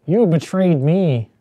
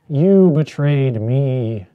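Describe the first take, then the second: First: Higher, louder, slightly slowed accusation; hammed-up wounded accusation; mock betrayal. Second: Louder, very slow and drawn out; hammed-up betrayal, dragged out heavily; slow mock betrayal. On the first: Rehearsing a dramatic line, a higher louder accusation. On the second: Second take of the dramatic line, very slow and heavy. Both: Shown as a demonstration. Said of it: "All right, that's pretty good".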